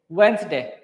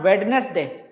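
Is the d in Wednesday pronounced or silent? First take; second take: silent; pronounced. First: The d sound is left silent. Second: The d sound is clearly pronounced. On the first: The speaker calls it right. "this D is complete soft" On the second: The speaker calls it wrong. "not Wednesday"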